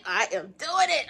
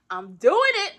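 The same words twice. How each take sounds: First: "am" spelled out and leaned on, firm and steady; stress on am. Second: Louder and higher, proudly declaring "doing"; proud declaration. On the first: Telling viewers she is doing it, firm emphasis. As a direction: insist on "I am doing it". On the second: Telling viewers she's doing it, proud and loud. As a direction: announce it like a win. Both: Real, not acted.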